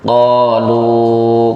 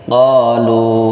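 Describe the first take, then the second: First: The final vowel is drawn out too long. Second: The final vowel is held for two counts. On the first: The speaker calls it wrong. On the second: The speaker calls it right. "Qalu berhenti dua"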